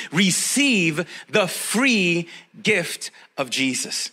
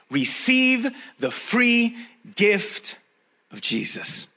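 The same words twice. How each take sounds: First: Receive the free gift of Jesus spoken very slowly, receive stressed; emphasized word. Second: Receive the free gift drawn out slowly, each word leaned on; emphasized. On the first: Preacher stressing receive for his congregation. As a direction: drag it out and lean on receive. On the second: Preacher slowing down to stress receive for the church. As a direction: stretch the phrase and press receive. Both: Shown as a demonstration. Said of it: "I'm gonna emphasize that one word".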